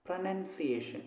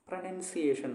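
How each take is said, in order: The two takes are said the same way.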